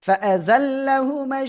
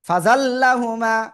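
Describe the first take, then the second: First: A glottal catch and 'a' follow the fa. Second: Fa runs straight into zallahuma without a catch. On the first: The speaker calls it right. "Hamza জবর আ। ... এভাবে পড়তে হবে না?" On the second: The speaker calls it wrong. "Nazmul সাকিব কি পড়েছে জানেন?"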